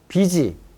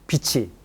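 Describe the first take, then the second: First: The middle consonant is a plain j sound. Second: The middle consonant is an aspirated ch sound. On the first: The speaker calls it wrong. "이렇게 되면 비지" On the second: The speaker calls it right. "이거는 빛이"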